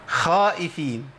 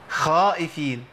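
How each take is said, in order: Both takes have the same delivery.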